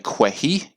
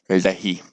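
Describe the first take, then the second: First: It begins with a kw sound. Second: It begins with a curled-tongue d sound. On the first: The speaker calls it wrong. "if you look at this and say kwehi, you will be off track" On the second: The speaker calls it right. "This word is pronounced lehi"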